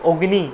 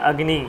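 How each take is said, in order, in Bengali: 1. এটি বাংলা উচ্চারণের ধাঁচে বলা হয়। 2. এটি সংস্কৃত উচ্চারণের ধাঁচে বলা হয়। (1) "এই যে অগ্নি বলে ফেলছি বাংলাতে অগ্নি" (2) "হয়ে যাবে অগ্নি"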